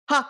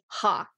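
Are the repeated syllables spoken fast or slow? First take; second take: fast; slow. First: The syllables come quickly, one after another. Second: The syllables come at a slower, steady pace. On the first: "And then you can speed it up" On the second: "It's like you're saying"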